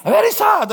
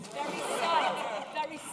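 First: High, loud mock lament; hammed-up loud sad wail. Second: Slow breathy whisper of sorrow; hammed-up sad whisper; mock sad whisper. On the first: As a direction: cry it out theatrically. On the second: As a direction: whisper it like a sulking child. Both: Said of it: "I was so disappointed".

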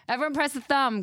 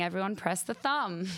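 First: Higher and louder, rallying the audience; loud urging. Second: Said in the usual way. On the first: Real, not acted. Host urges the listeners to press the thumb, loudly. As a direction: push it out as a call to everyone. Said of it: "repeats it to the audience". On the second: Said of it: "[name] is saying".

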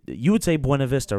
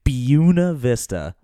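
First: Buena Vista with Spanish bw sound. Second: Buena Vista said slowly as BYOO-na, louder; local Colorado Buena Vista. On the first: Shown as a demonstration. Asking friends, Spanish Buena Vista. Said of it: "how would you say it". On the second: Retold or imitated. Mocking how Colorado locals say it. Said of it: "They say".

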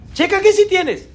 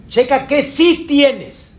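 First: Higher, ringing repeat of qué sí tienes. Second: Slow, leaning hard on sí; sí drawn out and punched, slowly; stress on sí. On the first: Preacher repeating the line to the congregation, pitched up high. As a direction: lift qué up high and call it out. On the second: Preacher urging the congregation, slow with weight on sí. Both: Shown as a demonstration.

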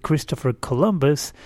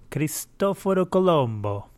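First: Said in the usual way. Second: Higher-pitched Italian accent on the name; put-on Italian pronunciation. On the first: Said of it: "they like to call him in the United States". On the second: Shown as a demonstration. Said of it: "That's my best, um, Italian accent".

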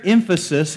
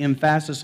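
First: Said in the usual way. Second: "emphasis" with the stress wrongly on the middle syllable, em-PHA-sis; misplaced stress. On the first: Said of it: "put the emphasis on". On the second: Shown as a demonstration. Preacher joking on putting the emphasis elsewhere, "emphasis" stressed em-PHA-sis. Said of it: "emphasis on a different syllable".

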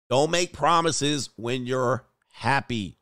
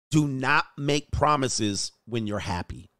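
First: Slow, weighty, leaning on make; slow repeated advice. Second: Slow, each word laid down like wisdom; slow proverb delivery. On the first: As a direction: hammer the lesson home slowly. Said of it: "dumbass decision". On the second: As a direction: preach it slowly like an old proverb. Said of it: "This is an old Chocolate is Confucius proverb here". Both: Shown as a demonstration.

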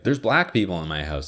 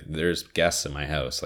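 First: Alarmed exclamation. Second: Said in the usual way. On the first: Shown as a demonstration. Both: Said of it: "It'd be like".

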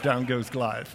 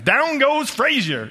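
First: Said in the usual way. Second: High, drawn-out sportscaster call; loud, stretched-out boxing commentary impression; Howard Cosell. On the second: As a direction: call the knockdown like an excited ringside announcer. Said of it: "If Howard Cosell was gonna announce this".

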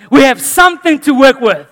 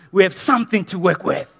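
First: Emphatic repeat. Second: Said in the usual way. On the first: Shown as a demonstration. Repeated, second louder.

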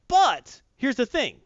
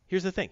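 First: Slow, louder, higher build-up; dramatic emphasis. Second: Said in the usual way. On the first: Shown as a demonstration. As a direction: lean hard on it like a big reveal.

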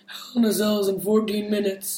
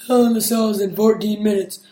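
First: Said in the usual way. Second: Hushed, unvoiced announcement; whispering. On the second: Shown as a demonstration. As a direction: breathe it out as a whisper. I repeat.

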